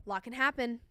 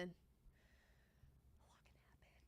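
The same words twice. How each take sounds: First: Said in the usual way. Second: Slow, breathy whisper. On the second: Real, not acted. Bettor whispering to chat, slow hushed hope.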